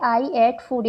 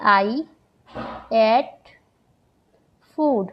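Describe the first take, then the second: First: Said in the usual way. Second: "I ate food" with long pauses between words. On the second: Shown as a demonstration. Teacher to students, spacing out "I ate food" word by word. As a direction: space out "I", "ate", "food" one by one. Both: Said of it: "ये मैंने एक example दिया".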